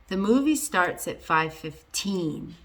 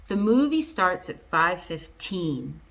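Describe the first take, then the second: Both takes have the same delivery.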